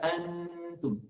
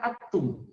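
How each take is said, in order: First: The n is nasalized and held two beats. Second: The n sound is left out entirely. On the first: The speaker calls it right. "Dengungkan di rongga hidung dua ketukan" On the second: The speaker calls it wrong. "bukan juga seperti yang merah atum"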